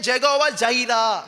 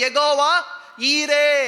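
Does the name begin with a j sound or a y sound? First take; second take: j sound; y sound. First: The name begins with a j sound. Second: The name begins with a y sound. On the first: This is how it is said in English. "ஆனா இங்கிலீஷ்ல" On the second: This is how it is read in Tamil. "இப்ப தமிழ் எப்படி வாசிக்கிறோம்?"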